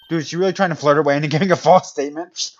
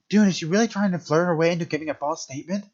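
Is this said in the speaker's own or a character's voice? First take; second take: own; character's. First: It is said without the character's put-on voice. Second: It is said in the character's put-on voice.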